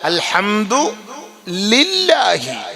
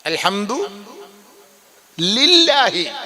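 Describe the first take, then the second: No difference in how they are said.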